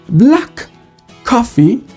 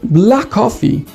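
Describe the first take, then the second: First: The two k sounds are said separately. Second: The k sounds merge into one long k.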